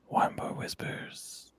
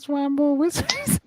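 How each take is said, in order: First: The voice is pitched low and deep. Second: The voice is pitched high. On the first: The speaker calls it right. "This is the voice I do every week" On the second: The speaker calls it wrong. "that's way too high"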